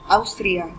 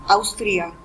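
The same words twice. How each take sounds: First: It is said with Spanish pronunciation. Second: The same.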